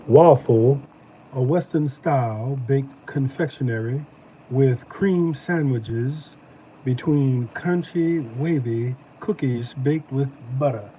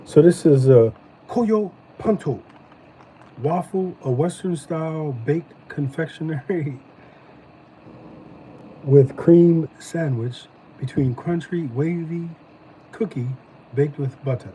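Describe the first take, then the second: First: Slow, drawn-out Southern accent reading the package. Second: Said in the usual way. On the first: Shown as a demonstration. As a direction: read the label again in a lazy Southern drawl. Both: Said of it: "Let me do it in my southern voice".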